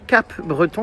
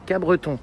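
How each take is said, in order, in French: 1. Le son P dans « Cap » est prononcé. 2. Le son P dans « Cap » est muet. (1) "on disait pas Cap Breton" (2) "Le P, on le prononce pas"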